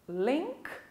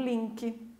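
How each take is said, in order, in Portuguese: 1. É falada com uma pronúncia de estilo inglês. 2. É falada com uma pronúncia de estilo português.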